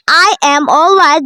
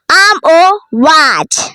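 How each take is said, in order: First: Both words 'I am' are said in full. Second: 'I am' is squeezed into one short syllable. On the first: The speaker calls it wrong. "Not I am alright" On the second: The speaker calls it right. "Then we have I'm alright"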